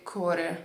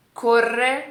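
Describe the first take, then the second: First: Corre with one short tapped r; single R. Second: Corre with a long rolled rr, louder and higher; double R. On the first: Teacher testing both versions aloud, single r. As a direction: say corre as if written core. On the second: Teacher testing both versions aloud, double r. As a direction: roll the rr hard in corre. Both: Shown as a demonstration. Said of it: "repetindo as duas versões".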